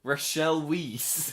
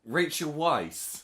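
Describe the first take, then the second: First: "Rachel Weisz" as ruh-SHELL WEEZ, drawn out; slowly mock "Rachel Weisz" as ruh-shell weez; mimicked mispronunciation. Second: "Rachel Weisz" as RAY-chul VICE, slow; correct pronunciation. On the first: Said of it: "sounds like a type of cheese". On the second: Shown as a demonstration. Correcting the mispronounced name.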